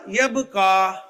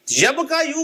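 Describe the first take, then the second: First: "यब का" closing on a long aa; changed Arabic reading. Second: "यब का यू" with the final "यू" sounded; ursprüngliche Form. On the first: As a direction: give the answer "यब का" without the yu syllable. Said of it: "उसने क्या पढ़ा". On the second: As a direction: say "यब का यू" higher, keeping the yu ending. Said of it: "यब का यू को उसने क्या पढ़ा". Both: Shown as a demonstration.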